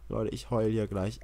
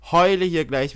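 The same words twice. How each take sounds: First: Said in the usual way. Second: Louder, higher mock wail on heule; louder half-joking wail; louder whiny repeat. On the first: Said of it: "repeats it louder". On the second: Real, not acted. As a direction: whine it out loud. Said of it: "repeat louder".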